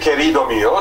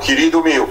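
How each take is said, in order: First: The unstressed vowels keep their e and o sounds. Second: The unstressed vowels are raised to i and u. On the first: This is how other speakers say it. "no se dice querido mío" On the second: This is how speakers in Sarajevo say it. "la E no acentuada convierte en una I"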